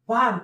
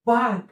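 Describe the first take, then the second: No difference in how they are said.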